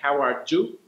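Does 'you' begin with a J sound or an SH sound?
J sound. The 'you' starts with a J sound. "in Mexico it being pronounced like an English J"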